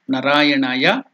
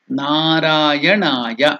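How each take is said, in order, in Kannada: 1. ಮೊದಲ ಸ್ವರವನ್ನು ಹ್ರಸ್ವವಾಗಿ ಉಚ್ಚರಿಸಲಾಗುತ್ತದೆ. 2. ಮೊದಲ ಸ್ವರವನ್ನು ದೀರ್ಘವಾಗಿ ಉಚ್ಚರಿಸಲಾಗುತ್ತದೆ. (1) "It is not Narayanaya. / Hraswa, if you tell Nara, it is human being" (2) "It is Narayanaya. It is Dirgha"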